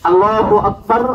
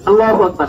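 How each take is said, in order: First: It is said slowly with long gaps. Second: It is said quickly with no gaps.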